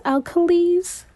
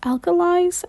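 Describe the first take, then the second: First: Alkalis tried with a long EE in the last syllable, higher; unsure second guess. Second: Alkalis tried with a long EYE in the last syllable, higher; unsure sounding-out. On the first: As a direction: say Alkalis questioningly, ending "lees". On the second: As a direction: say Alkalis questioningly, ending "lies". Sounding out an unfamiliar word. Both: Acted.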